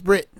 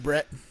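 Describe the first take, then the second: First: The vowel is pronounced like a short i. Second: The vowel is pronounced like a short e. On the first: "if the E is pronounced like an I" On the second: "It's supposed to be Brett"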